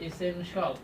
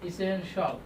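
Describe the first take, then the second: Both takes have the same delivery.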